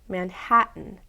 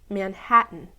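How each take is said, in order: Both takes have the same delivery.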